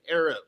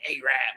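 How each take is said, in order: First: The first syllable has a short vowel sound. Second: The first syllable is a long 'ay' sound. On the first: The speaker calls it right. "like pronounce it correctly" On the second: The speaker calls it wrong. "it's just A and then R A B"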